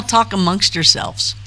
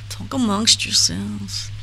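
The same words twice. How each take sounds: First: Said in the usual way. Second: Slow, drawn-out mock Jewish accent; attempted Jewish accent. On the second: Repeating a line to the chat, attempted Jewish accent. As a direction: have a poor go at a Jewish accent, taking it slowly. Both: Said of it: "I can't do a Jewish accent".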